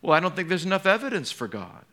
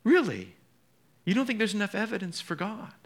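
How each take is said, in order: First: A quick, higher, dismissive skeptic; lightly voiced scoffing unbeliever. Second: Higher, quick, disbelieving echo; mock astonished question; incredulous. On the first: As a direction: toss off the doubter's excuse. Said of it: "People hide behind unbelief". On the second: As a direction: throw the excuse back in disbelief. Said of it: "and I just think".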